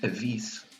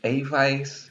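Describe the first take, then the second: First: The name is said with Portuguese sounds. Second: The name is said with English sounds. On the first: "if you said it like it's in Portuguese" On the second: "it sounds like it's a vice"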